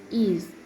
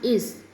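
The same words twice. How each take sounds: First: The word ends with a voiced z sound. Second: The word ends with a voiceless s sound. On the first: The speaker calls it right. "voice was is" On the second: The speaker calls it wrong. "not is"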